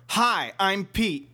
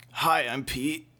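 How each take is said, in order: First: Slower, more deliberate hello; slower redo. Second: Said in the usual way. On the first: Shown as a demonstration. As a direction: say it again, carefully. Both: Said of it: "Start over".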